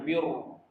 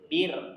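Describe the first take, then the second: First: The r sound is heavy and thick. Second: The r sound is light and thin. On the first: The speaker calls it wrong. "Jangan biru. Biru itu tebal" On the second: The speaker calls it right. "Kalau bir, ya, bir"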